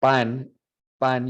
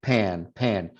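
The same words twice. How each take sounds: First: Pan with an unaspirated Spanish P. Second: Pan with an aspirated English P. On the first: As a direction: say "pan" with little to no air on the p. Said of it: "you should feel little to no air". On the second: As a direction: blow air out on the p of "pan". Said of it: "You feel that air coming out?". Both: Shown as a demonstration.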